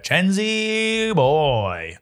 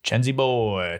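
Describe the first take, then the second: First: Very slow, stretched-out singsong; drawn-out singsong. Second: Said in the usual way. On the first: Acted. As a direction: stretch every syllable out lazily. Name repeated in a stretched voice.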